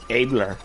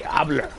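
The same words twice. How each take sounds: First: "Abler" with an English long A, AY-bler; wrong pronunciation. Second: "Abler" with an open AH, AH-bler; right pronunciation. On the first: Correcting a friend's family name, "Abler" said AY-bler. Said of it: "when you say, you don't say". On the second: Correcting a friend's family name, "Abler" said AH-bler. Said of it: "when you say". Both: Shown as a demonstration.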